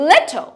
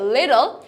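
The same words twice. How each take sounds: First: British accent, with a sharp, crisp T. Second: American accent, with the middle T as soft D. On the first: "ব্রিটিশরা will say" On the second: "আমেরিকানসরা will say"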